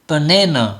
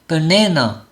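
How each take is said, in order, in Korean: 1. 가운데 모음만 완전하고 나머지는 약하게 발음합니다. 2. 가운데 모음만 완전하고 나머지는 약하게 발음합니다.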